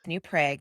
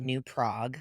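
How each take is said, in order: First: The name is pronounced the Minnesotan way. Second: The name is pronounced the Czech way. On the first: This is how locals in the state say it. "because we're in Minnesota" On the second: This is how it is said in the old country. "that's how you say it in Czechoslovakia"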